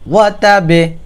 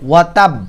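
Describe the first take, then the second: First: The final b is released with a bouncing echo. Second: The final b is cut short without echo. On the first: The speaker calls it right. "বা হচ্ছে কলকলার শব্দ" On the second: The speaker calls it wrong. "এখানে যদি কেউ বলে ওয়াতাব তাহলে আপনাদের নামাজ নষ্ট হয়ে যাবে"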